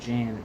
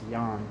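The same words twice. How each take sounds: First: The name begins with an English J sound. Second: The name begins with a Y sound. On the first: The speaker calls it wrong. "it's not Jan" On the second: The speaker calls it right. "it's Jan in Dutch"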